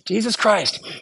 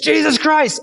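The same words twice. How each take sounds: First: It is said as a calm prayer. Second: It is said as an angry curse.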